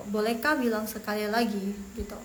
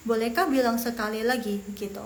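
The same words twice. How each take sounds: The two takes are said the same way.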